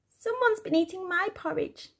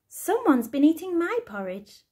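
First: It is said in a squeaky little voice. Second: It is said in a middle-sized voice.

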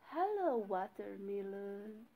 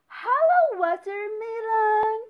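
First: It is said quietly. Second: It is said loudly.

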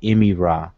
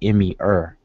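First: The last word is an 'r' plus 'ah'. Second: The last word is a short 'er' sound. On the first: "reconstructed with the R capital A, be Ra" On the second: "some people pronounce it as er and put an E in front of the R"

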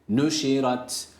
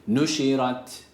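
Both takes have the same delivery.

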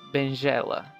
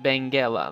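First: The G is a soft J sound. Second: The G is a hard G sound. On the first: "If it didn't have an U here, you would read it Benjela" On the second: "like you read the G, like G"

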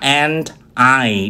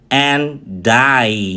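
First: The D links smoothly into the next word. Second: The D is pushed onto the next word as die. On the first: The speaker calls it right. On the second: The speaker calls it wrong.

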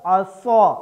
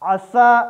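First: The 's' is heavy and emphatic. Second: The 's' is light and plain. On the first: The speaker calls it right. "स्वाद के साथ असौ" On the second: The speaker calls it wrong. "सीन के साथ असा पढ़ देना"

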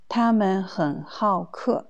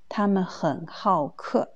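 Both takes have the same delivery.

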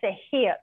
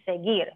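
First: The g is a breathy, h-like sound. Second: The g is a hard sound, as in gear. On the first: The speaker calls it wrong. "This word is not seguir" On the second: The speaker calls it right. "This word is seguir"

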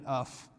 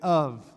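First: The word ends with an F sound. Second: The word ends with a V sound. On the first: The speaker calls it wrong. "it's not an F sound. We don't say that of" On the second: The speaker calls it right. "We say it of, like it's a V"

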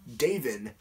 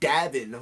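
First: The name is said plainly, like David. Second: The name is said with an odd, distorted pronunciation. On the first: The speaker calls it right. "why can't you say Davin?" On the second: The speaker calls it wrong. "like there's some weird fucking accent over it"

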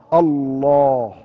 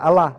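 First: The word is said with a heavy, full sound. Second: The word is said with a light, thin sound. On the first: The speaker calls it right. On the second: The speaker calls it wrong. "If you say it like that, Allah, Allah, you can't"

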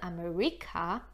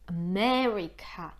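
First: The stress is on the third syllable. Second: The stress is on the second syllable. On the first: The speaker calls it wrong. "to już nam nie wyjdzie to słówko" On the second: The speaker calls it right. "a po angielsku mamy akcent na me"

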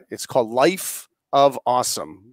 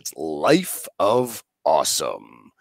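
First: It is said in his ordinary speaking voice. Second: It is said in his special show voice.

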